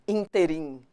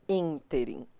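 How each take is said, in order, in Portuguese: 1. A tônica cai em uma sílaba posterior. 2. A tônica está na primeira sílaba. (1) "e não interim" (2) "Ínterim é pronunciado assim"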